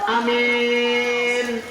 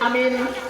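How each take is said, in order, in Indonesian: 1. Vokal pertama pendek, vokal kedua panjang. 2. Kedua vokal pendek. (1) "akna pendek, mina dipanjangkan" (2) "Kalau kita baca a-nya pendek, min-nya pendek"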